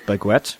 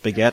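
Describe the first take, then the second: First: The word is said with the written u sounded. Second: The word is said in its usual standard way.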